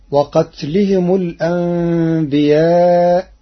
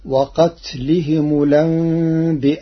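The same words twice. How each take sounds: First: Said in the usual way. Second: الأنبياء with the vowel moved onto the lam, lanbi'a; Warsh reading. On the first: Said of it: "قرأ ورش كلمة الأنبياء". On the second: Shown as a demonstration. Teacher demonstrates Warsh's transfer of the hamza in الأنبياء. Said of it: "بنقل حركة الهمز إلى الساكن قبله".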